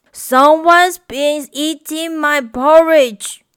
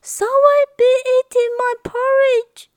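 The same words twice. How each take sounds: First: A lightly voiced papa bear, loud and grumpy; grumbling Papa Bear. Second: Much higher and louder, fussing and worried; high, fretful mother bear voice; fretting Mama Bear. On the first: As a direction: grumble it like a cross father bear. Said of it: "grumbled Papa Bear". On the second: Acted. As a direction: fret over the porridge like an anxious mother bear. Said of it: "fretted Mama Bear".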